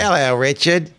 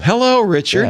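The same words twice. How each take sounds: First: It is said in an attempted Kiwi accent. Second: It is said in his normal American voice.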